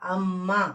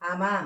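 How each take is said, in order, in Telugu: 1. మధ్య హల్లు ద్విత్వంగా, దీర్ఘంగా ఉంటుంది. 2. మధ్య హల్లు హ్రస్వంగా, ఒంటరిగా ఉంటుంది. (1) "అదే ఒత్తి చేరిస్తే నొక్కి పలుకుతుంటే దీనికి సంపూర్ణ పదం అవుతుందన్నమాట" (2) "ఇప్పుడు ఈ ఒత్తి లేకుండా చదివి చూద్దాం"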